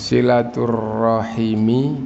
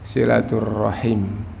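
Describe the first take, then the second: First: The word ends with a final i vowel. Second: The word ends without a final vowel. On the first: This is the full original form. "silaturrahimi menjadi silaturrahim" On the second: This is the form used when stopping. "silaturrahimi menjadi silaturrahim"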